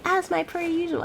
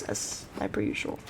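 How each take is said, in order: First: "As my per usual" said higher, teasing; mocking her own phrase. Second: Said in the usual way. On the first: Shown as a demonstration. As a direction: mimic your own catchphrase, mocking. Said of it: "Me saying". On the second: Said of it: "I need to stop saying that".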